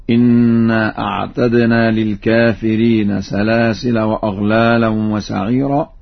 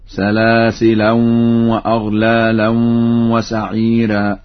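First: Said in the usual way. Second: Nasalise the end of "سلاسلا" into the following waw; with tanween. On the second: Shown as a demonstration. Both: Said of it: "يقرأ بالتنوين".

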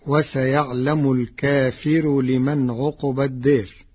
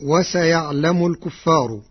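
First: الكافر with long open ك and light ف; Warsh reading, singular. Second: الكفار as al-kuffar, plural; first reading. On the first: Teacher demonstrates Warsh's singular reading, الكافر as al-kaafir. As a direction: stretch the ك, al-kaafir, and thin the ر. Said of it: "بفتح الكاف ومدها وكسر الفاء مخففة". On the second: Teacher recites the common reading before Warsh's, الكفار as al-kuffar. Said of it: "قرأ ورش كلمة "الكفار". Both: Shown as a demonstration.

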